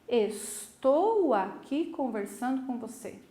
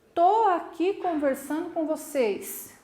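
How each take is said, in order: First: Every R and S sound is clearly pronounced. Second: Some R and S sounds are dropped casually. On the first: This is careful formal speech. "Eu coloco os R's no lugar, os S's no lugar" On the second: This is relaxed everyday speech.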